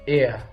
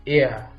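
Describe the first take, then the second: First: The word is said with an American pronunciation. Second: The same.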